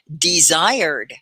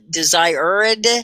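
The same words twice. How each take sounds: First: The ending is joined into two syllables. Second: The ending is said as an extra syllable. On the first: The speaker calls it right. "it's really just two syllables" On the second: The speaker calls it wrong. "The ed is not a desired. You don't have an extra ed"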